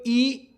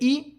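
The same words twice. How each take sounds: First: The vowel is drawn out longer. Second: The vowel is held only briefly.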